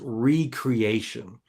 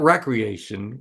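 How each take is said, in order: First: The first syllable sounds like 'ree'. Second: The first syllable sounds like 'reck'. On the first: Being made new again. "He said the play button is recreation" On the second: Leisure activities for fun. "not recreation. We think of recreation, driving A T Vs"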